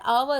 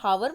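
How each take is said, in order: First: The word begins directly with a vowel sound. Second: The word begins with an audible h sound. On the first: The speaker calls it right. "इसमें आवर में H silent होता है" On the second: The speaker calls it wrong. "तो हावर नहीं होता है"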